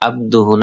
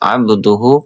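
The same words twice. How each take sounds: First: The b is said plainly without a bounce. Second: The b is said with a bouncing echo. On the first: The speaker calls it wrong. "না" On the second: The speaker calls it right. "কলকলা হবে"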